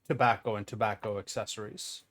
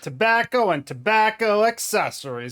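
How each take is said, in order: First: It is said in the speaker's ordinary voice. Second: It is said in a put-on Southern accent.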